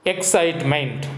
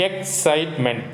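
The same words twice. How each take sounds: First: Said in the usual way. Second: "Excitement" slowly, in three separate beats; split into syllables. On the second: Shown as a demonstration. Teacher counting three syllables for children, "Excitement" split up slowly. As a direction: break "Excitement" after each syllable. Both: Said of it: "Three syllables we can do".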